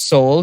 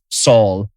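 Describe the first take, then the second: First: The vowel is the long 'oh' of soul. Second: The vowel is the 'aw' of Saul. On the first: The speaker calls it right. "how Tracy Morgan pronounced Soul" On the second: The speaker calls it wrong. "He completely mispronounced it"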